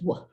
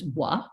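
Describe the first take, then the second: First: The sound is cut off short and clipped. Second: The sound is drawn out with a trailing vowel. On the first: "if it's clipped off a little bit more" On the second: "more often than not is taught as W"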